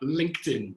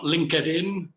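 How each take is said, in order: First: The word is said with two syllables. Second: The word is said with three syllables. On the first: The speaker calls it right. "but LinkedIn, two syllables" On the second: The speaker calls it wrong. "not LinkedIn"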